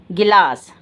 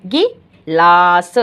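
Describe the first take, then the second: First: Said in the usual way. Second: Each sound drawn out slowly; slow, louder teaching demo; stretched demo. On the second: Shown as a demonstration. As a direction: say it slowly so children hear every sound. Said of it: "ल में आया आ का sound और स".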